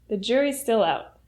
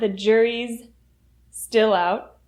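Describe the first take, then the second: First: The two s sounds link into one. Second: The two s sounds are said separately. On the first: The speaker calls it right. "The two sounds link together" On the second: The speaker calls it wrong. "So it's not"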